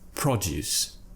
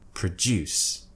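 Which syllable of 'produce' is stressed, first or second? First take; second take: first; second. First: The stress is on the first syllable. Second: The stress is on the second syllable. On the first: It is the noun. "more of a stress to it, more emphasis" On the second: It is the verb. "we're stressing a different syllable"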